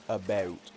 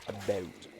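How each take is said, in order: First: "about" with one even vowel all the way through; American about. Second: "about" with the last vowel raised, softer; Canadian about. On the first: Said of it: "Americans tend to keep it the same". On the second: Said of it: "I raise the last vowel". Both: Shown as a demonstration.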